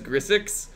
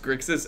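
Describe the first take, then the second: First: The 'ks' sound comes in the last syllable. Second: The 'ks' sound comes in the first syllable. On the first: The speaker calls it wrong. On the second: The speaker calls it right.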